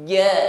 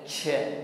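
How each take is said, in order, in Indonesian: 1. Konsonannya kuat dan tidak ada udara yang keluar. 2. Konsonannya dilepaskan dengan hembusan napas. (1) "jangan disertai dengan angin" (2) "disertai dengan angin"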